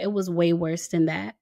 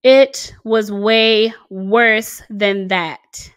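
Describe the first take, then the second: First: Said in the usual way. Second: "It was way worse than that" stretched very slowly and louder; slow heavy emphasis. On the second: Shown as a demonstration. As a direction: lean hard on every word, dragging it out.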